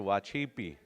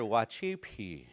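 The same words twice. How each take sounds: First: The consonant sounds between a P and a B. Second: The consonant is a plain, hard P sound. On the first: The speaker calls it right. "It's a mixture of P" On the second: The speaker calls it wrong. "You'll never hear Wachipi"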